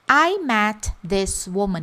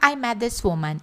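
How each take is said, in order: First: Each word is said slowly and separately. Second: The words are said fast and run together.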